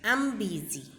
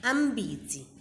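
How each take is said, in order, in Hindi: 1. 'I am' छोटा होकर 'I'm' बोला जाता है। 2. 'I am' छोटा होकर 'I'm' बोला जाता है।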